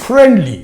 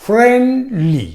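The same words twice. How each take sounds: First: Said in the usual way. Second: friendly slowly, high drawn-out fren, then falling li; split into syllables. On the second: Shown as a demonstration. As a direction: stretch friendly into two distinct beats. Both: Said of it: "two syllable".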